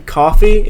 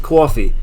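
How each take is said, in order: First: Said in the usual way. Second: "coffee" in a Northern US accent. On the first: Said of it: "Accent is the difference between". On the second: Shown as a demonstration. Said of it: "up north, you might be like".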